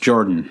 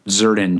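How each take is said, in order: First: The name does not begin with a z sound. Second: The name begins with a z sound. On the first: The speaker calls it right. "It's pronounced Jordan" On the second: The speaker calls it wrong. "I think I say the X like a Z, probably incorrectly"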